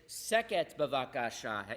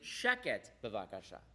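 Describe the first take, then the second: First: The first word begins with a plain s sound. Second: The first word begins with an sh sound. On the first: The speaker calls it wrong. "you don't say" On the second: The speaker calls it right. "you say"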